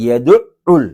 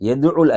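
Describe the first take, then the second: First: The ayn sound is pressed and doubled. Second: The ayn sound is short and single. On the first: The speaker calls it right. "அந்த ஐன்ல சத்தரிக்கு அழுத்தவன்" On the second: The speaker calls it wrong. "يدعل அல்ல"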